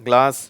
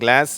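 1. இது பிரிட்டிஷ் உச்சரிப்பில் சொல்லப்படுகிறது. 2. இது அமெரிக்க உச்சரிப்பில் சொல்லப்படுகிறது. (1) "ஆங்கிலேயர்கள் அதாவது இங்கிலாந்து நாட்டுக்காரங்க கிளாஸ் அப்படின்னு சொல்கிறாங்க" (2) "இதை அமெரிக்கர்கள் கிளாஸ் அப்படிங்கிறாங்க"

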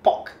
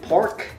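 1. シンガポール英語のアクセントで発音されています。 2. アメリカ英語のアクセントで発音されています。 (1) "And in Singapore it's pork" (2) "In American English it's pork"

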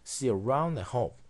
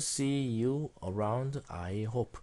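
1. 음절들이 하나로 이어진 덩어리처럼 붙어서 발음됩니다. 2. 각 음절을 하나씩 따로 발음합니다. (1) "영어에서는 이렇게 하나의 음절로 청크로 붙여서 읽죠" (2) "한국어로는 see you around, I hope. 이렇게 다섯 개의 음절로 나누어서 읽겠지만"

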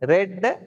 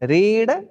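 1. உயிரெழுத்து குறுகிய 'e' ஒலி. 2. உயிரெழுத்து நீண்ட 'ee' ஒலி.

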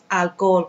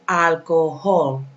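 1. La h es muda. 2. La h se pronuncia claramente. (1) "No es alcohol como nosotros" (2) "La H suena"

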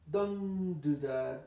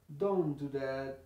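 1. La t desaparece y se une directamente con do. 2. La t desaparece y se une directamente con do.

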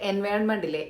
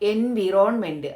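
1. രണ്ടാമത്തെ അക്ഷരം 'vy' പോലെയാണ് കേൾക്കുന്നത്. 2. രണ്ടാമത്തെ അക്ഷരം 'vee' പോലെയാണ് കേൾക്കുന്നത്. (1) "നമ്മുടെ എൻവയോൺമെൻറ്റിലെ" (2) "അപ്പോൾ അതിനെ ഇവരെങ്ങനെയാണ് വായിക്കുക?"

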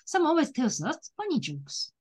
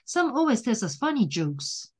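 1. "funny jokes"の前に間があります。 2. この文は間を置かずに言います。

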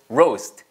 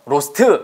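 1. 단어가 t에서 끝나고, 모음은 없어요. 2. 마지막 t 뒤에 'uh' 모음이 하나 더 붙어요.

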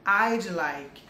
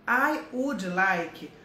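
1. As duas primeiras palavras se juntam em uma só sílaba. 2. Cada palavra é dita por completo e separadamente.

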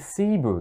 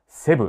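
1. 英語の発音で言います。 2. 日本語のカタカナ発音で言います。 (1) "Cebu って言うんですよね" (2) "セブって言うと通じないんで"

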